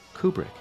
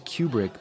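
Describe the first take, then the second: First: The first syllable sounds like 'koo' without a glide. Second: The first syllable sounds like 'kyoo' with a glide. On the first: This is the plain, unpretentious way. "bear with me if I just say Kubrick" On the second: This sounds fancy or pretentious. "there's that liquid you again ... I feel too pretentious saying it like that"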